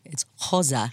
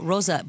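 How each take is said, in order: First: The name is said with a fuller Portuguese pronunciation. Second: The name is said in a simpler, less Portuguese way.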